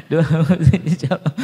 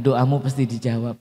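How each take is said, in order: First: Laughing through the words, louder. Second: Said in the usual way. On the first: Real, not acted. Preacher repeats the blessing to the congregation, laughing. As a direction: say it while laughing. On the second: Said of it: "Bilang kiri kanan".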